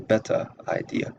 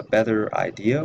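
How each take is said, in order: First: Better said as "bettah", R dropped; Southern better idea with no R in better; Southern non-rhotic. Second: Said in the usual way. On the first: Shown as a demonstration. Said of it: "would be pronounced better idea". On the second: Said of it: "Southern accent is non-rhotic".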